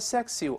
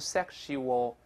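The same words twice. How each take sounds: First: The middle consonant is a plain s sound. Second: The middle consonant is an sh sound. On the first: The speaker calls it wrong. "不读成sexual" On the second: The speaker calls it right. "一般会变成sh 这个声音。"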